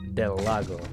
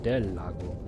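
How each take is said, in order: First: The name is said with an English accent. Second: The name is said with a Spanish accent.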